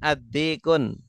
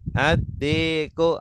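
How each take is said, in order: First: The word ends with an added N sound. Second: The word ends in a plain U vowel. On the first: The speaker calls it wrong. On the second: The speaker calls it right.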